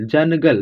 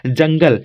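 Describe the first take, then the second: First: जनगल said as ज-न-गल with a clear n sound; split syllables. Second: Said in the usual way. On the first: Shown as a demonstration. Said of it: "थोड़ा जनगल". (जनगल को ज-न-गल तोड़कर, न साफ़ बोलते हुए) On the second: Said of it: "तो क्या उच्चारण क्या हो रहा है".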